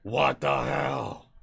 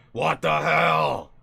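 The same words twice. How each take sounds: First: Put-on Gray accent. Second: Put-on slow, loud old-man grumble, not deep enough yet; first try at the voice, too light. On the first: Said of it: "throw the gray accent on there". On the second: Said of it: "I didn't say it deep enough".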